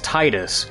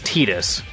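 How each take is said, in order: First: The first syllable sounds like the word 'tide'. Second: The first syllable does not sound like 'tide'. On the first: The speaker calls it wrong. "tide, it sounds like water" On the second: The speaker calls it right. "canonically it's Titus"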